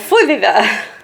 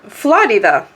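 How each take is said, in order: First: The R sound is replaced, giving Fudida. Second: The word is said with its R sound. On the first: A child who cannot say the R said it. The speaker calls it wrong. "he couldn't pronounce Florida because there's an R there" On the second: This is how the word is normally said. The speaker calls it right. "the way you say Florida, you say uh"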